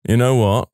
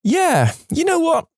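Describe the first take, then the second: First: Said in the usual way. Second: Much higher, odd put-on voice; comic high voice. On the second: Narrator echoing the aside in a squeaky high voice.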